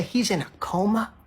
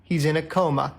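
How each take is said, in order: First: COMA rising into a question; incredulous echo question. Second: Said in the usual way. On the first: Acted. Diner questioning the server about Gary, incredulous rise on "coma". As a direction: query it in disbelief, lifting on "coma".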